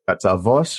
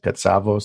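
First: The name is said with its original Greek pronunciation. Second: The name is said with a North American pronunciation.

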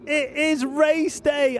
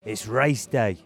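First: It is said in a lively, energetic way. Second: It is said in a low-key, subdued way. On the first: The speaker calls it right. "I am so excited" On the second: The speaker calls it wrong. "I'm building the tension"

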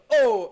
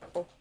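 First: The oh is said big and loud. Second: The oh is said small and soft. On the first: It stands for a big ball. "als dat een grote bol is, dan zeg je oh" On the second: It stands for a small ball. "als dat een klein bolletje is, dan zeg je oh"

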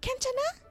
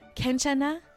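First: The question is said at a high pitch. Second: The question is said at a lower pitch. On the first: The speaker calls it wrong. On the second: The speaker calls it right. "Babaan natin"

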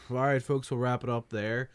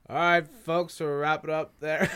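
First: It is said in the speaker's natural voice. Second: It is said in an imitated, put-on voice. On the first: It is the speaker's own way. The speaker calls it right. "Do it the way Heron would do it" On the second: It mimics another host. The speaker calls it wrong. "You don't have to do an impression of me"

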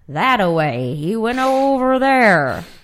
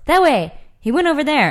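First: It is said in a put-on cowboy voice. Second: It is said in a plain, normal voice.

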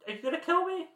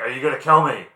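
First: It is said in a high-pitched voice. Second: It is said in a lower voice.

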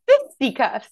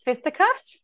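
First: The first syllable is strongly emphasized. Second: The first syllable has ordinary stress.

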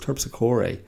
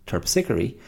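First: The name is said with a non-standard pronunciation. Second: The name is said with the standard pronunciation. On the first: The speaker calls it wrong. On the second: The speaker calls it right. "actual pronunciation"

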